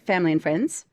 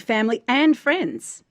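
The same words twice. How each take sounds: First: The 'and' is reduced and the phrase runs together. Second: The 'and' is stressed and stands apart.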